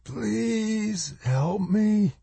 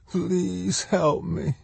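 First: High, slow, drawn-out plea; pained rasp. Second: High, soft, slow plea; begging. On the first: Injured woman pinned under rock begging for help, pained rasp. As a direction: beg softly and slowly, high and strained. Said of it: "the bloody mouth rasped". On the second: Trapped woman begging a boy for help, pleading. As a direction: plead weakly in a high, stretched voice. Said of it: "she begged". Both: A narrator's reading.

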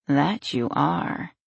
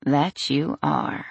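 First: Slow "That you are", rising at the end; drawn-out agreement. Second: Slow "That you are", falling at the end; drawn-out agreement. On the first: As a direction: stretch "That you are" and lift the ending. Boyfriend agrees, relaxing, then repeats. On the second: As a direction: stretch "That you are" and let it settle downward. Boyfriend repeats it, leaning down. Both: A narrator's reading.

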